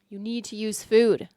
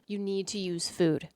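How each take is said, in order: First: It is said louder, with more force. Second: It is said at a normal volume.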